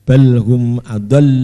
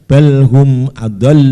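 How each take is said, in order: The two takes are said the same way.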